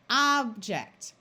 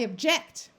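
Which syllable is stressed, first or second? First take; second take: first; second. First: The stress is on the first syllable. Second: The stress is on the second syllable. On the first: It names a thing. "The noun form accents the first syllable" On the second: It expresses disagreement as an action. "The verb form accents the second syllable"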